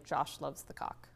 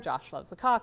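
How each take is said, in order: First: It is said quietly. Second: It is said loudly.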